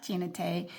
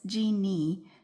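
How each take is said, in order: First: The name is said with three syllables. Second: The name is said with two syllables. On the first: The speaker calls it wrong. "I keep pronouncing it wrong" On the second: The speaker calls it right. "but it's Jeannie, not Gina Tay"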